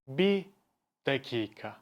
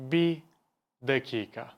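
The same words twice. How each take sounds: First: The r of bir is dropped. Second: The same.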